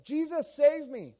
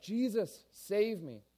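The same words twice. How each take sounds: First: High, loud panicked scream for help; crying out. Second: Higher-pitched urgent plea, less than a scream; pleading cry. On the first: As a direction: cry out as if sinking. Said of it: "then he cries out". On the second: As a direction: reach out for rescue with your voice. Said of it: "And he reaches out". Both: Acted.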